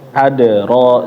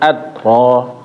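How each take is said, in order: First: The d bounces with a short echo vowel. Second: The d is cut off without any echo. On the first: The speaker calls it right. "qalqalah yang dipantul" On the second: The speaker calls it wrong. "jangan ad ro"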